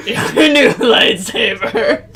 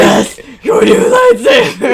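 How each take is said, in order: First: Slow, higher, giggling through it; laughing. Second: Very high, very loud crazed yell; manic shout. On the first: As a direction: present it while cackling. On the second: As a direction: scream it like a mad inventor. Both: Acted. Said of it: "what voice to do for this random person".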